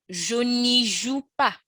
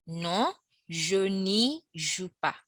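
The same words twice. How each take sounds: First: Slow, careful French model; slow teacher demo; slow model line. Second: Very slow, deliberate repeat; slow teacher repeat; slower repeat. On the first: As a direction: say it slowly for learners. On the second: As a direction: stretch it out for learners. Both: Shown as a demonstration. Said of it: "you'd have".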